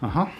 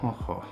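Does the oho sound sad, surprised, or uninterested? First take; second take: uninterested; sad. First: The word sounds uninterested. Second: The word sounds sad. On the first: The speaker does not care. "The feeling like you don't actually care about what's being said" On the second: The speaker feels sad.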